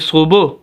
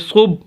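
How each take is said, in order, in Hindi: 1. आखिरी b गूंजते झटके के साथ छोड़ा जाता है। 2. आखिरी b बिना झटके के रोका जाता है। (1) "कलकला करना होगा तो हम पढ़ेंगे" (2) "बगैर कलकले के पढ़े तो हम पढ़ेंगे"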